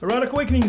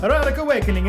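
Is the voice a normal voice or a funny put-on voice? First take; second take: normal; funny. First: It is said in the speaker's normal voice. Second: It is said in a funny put-on voice.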